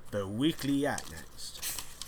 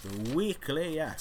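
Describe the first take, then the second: First: Said in the usual way. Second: Higher, slow announcer read of the title. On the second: Shown as a demonstration. Host announcing his podcast segment, in a mock announcer voice. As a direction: announce the segment name grandly.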